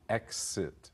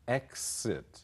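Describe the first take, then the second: First: The middle consonant is voiceless, like ks. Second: The same.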